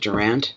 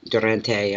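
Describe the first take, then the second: First: The name ends without a final vowel sound. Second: The name ends with a sounded final vowel. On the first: This is how the name is said locally. "here we would pronounce it Durant. It's French" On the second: This may be how the name's owner says it. "I don't know if you pronounce your E on the end"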